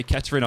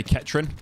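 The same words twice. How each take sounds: First: "Kettering" in three full syllables; "Kettering" as Ket-er-ing; full pronunciation. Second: "Kettering" squeezed to two syllables, Ket-rin; clipped "Kettering", middle vowel dropped; local pronunciation. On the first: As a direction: say "Kettering" with the middle vowel kept. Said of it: "I wouldn't say Kettering". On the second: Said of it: "I'd say Kettering". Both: Shown as a demonstration.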